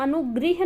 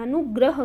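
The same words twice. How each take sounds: First: अनुगृह with री sound, not र; wrong form. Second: अनुग्रह with a clear र cluster, grah; correct form. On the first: Teacher showing students the wrong form, री sound. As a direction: model अनुगृह as the mistake, री sound. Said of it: "अनुग्रह करते हैं". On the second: Teacher giving students the correct form, stressed. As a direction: stress अनुग्रह, ग्रह said crisply. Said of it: "हम अनुगृह नहीं करते हैं". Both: Shown as a demonstration.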